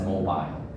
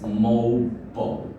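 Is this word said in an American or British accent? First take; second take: British; American. First: It is said with a British pronunciation. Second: It is said with an American pronunciation. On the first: "the British English would definitely pronounce it as mobile" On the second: "American English would say it's mobile"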